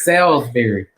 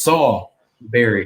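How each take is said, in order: First: The first part sounds like 'salz'. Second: The first part sounds like 'Saul'. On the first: It names the steak dish. "the steak is Salisbury" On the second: It names the person. "My name is Saul Berry... As in King Saul"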